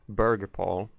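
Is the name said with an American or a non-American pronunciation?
American. The name is said with an American pronunciation.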